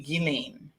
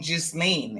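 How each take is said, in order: First: No S sound is heard in the name. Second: An S sound is pronounced in the name. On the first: The speaker calls it right. "it's actually Ghislaine. the S is completely silent" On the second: The speaker calls it wrong. "I was pronouncing the S. So I was saying Ghislaine"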